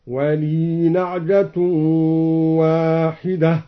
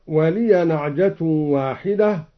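First: "ولي" as waliii, long ee and no final a; slow chant, "ولي" held without a vowel on ya; vowelless ya. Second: Said in the usual way. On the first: Shown as a demonstration. Reciter showing Al-Duri, "ولي" as walee. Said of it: "سكن الياء".

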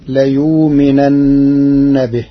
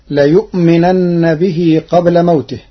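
First: ليؤمنن with the hamza softened to a long u, layuminanna; Warsh reading. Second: Said in the usual way. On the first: Shown as a demonstration. Teacher demonstrates Warsh's eased hamza, slowly. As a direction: say ليؤمنن with a plain waw instead of the glottal stop. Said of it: "بإبدال الهمزة واوا ساكنة". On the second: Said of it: "قرأ ورش كلمة "ليؤمنن".

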